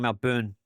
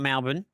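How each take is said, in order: First: Said in an American accent, the b clearly pronounced. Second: Said in an Australian accent, the b barely heard. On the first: The speaker calls it wrong. "they call it Melbourne. They pronounce the B area a bit more" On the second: The speaker calls it right. "I call it Melbourne"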